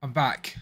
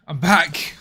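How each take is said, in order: First: Said in the usual way. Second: Louder, lifted "I'm back"; triumphant announcement. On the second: Real, not acted. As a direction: proudly call out "I'm back" to chat. Streamer returns after camera fix.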